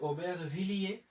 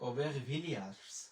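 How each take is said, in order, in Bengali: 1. এটি ফরাসি উচ্চারণে বলা হয়েছে। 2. এটি ইংরেজি উচ্চারণে বলা হয়েছে। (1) "ফরাসিতে আমরা বলতেছি" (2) "এখানে আমরা বলতেছি"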